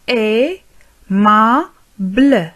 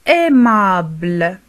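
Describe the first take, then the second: First: "Aimable" split slowly as ai, ma, ble; very slow "Aimable" with pauses between syllables. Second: Said in the usual way. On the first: Shown as a demonstration. Teacher modelling for learners, syllable by syllable "Aimable".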